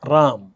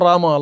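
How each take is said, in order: First: The name ends on the consonant without a vowel. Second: The name ends with an added long a vowel. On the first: It is the native form of the name. The speaker calls it right. "आपला कोण आहे देव?" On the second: It copies how foreigners pronounce it. The speaker calls it wrong. "आकार कशासाठी करताय?"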